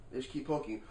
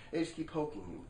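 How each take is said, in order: Both takes have the same delivery.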